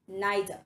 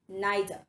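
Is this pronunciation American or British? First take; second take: British; British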